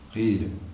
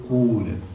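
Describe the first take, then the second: First: The vowel is a pure, unrounded i sound. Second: The vowel is a long, rounded u sound. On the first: "لك فيه الكسر الخالص" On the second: "ولك فيه أيضا الضم"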